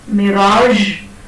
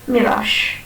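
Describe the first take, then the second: First: The final consonant is a voiced zh sound. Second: The final consonant is a voiceless sh sound. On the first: The speaker calls it right. "instead of saying mirage" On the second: The speaker calls it wrong. "we say mirage"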